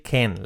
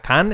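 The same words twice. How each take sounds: First: "can" with a like e, "ken"; correct pronunciation. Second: "can" with a Spanish a, "kahn"; wrong pronunciation. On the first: Teacher correcting typical error, correct "can". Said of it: "La A como una E". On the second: Teacher warning of typical error, mispronounced "can". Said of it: "Cuidado que no sea can". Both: Shown as a demonstration.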